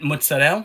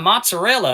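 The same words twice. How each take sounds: First: It is said the Italian-American way, final vowel dropped. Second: It is said the Southern way, final vowel pronounced.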